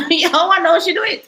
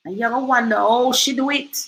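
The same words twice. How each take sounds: First: Amused chuckling retake; laughing. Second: Said in the usual way. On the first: Real, not acted. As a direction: laugh through the repeat. Repeats line laughing.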